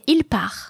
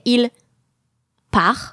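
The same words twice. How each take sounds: First: The two words run together without a break. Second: There is a break between the two words. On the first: The speaker calls it right. "but you would say il par" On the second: The speaker calls it wrong. "you can't take a break between il and par. You don't say il par"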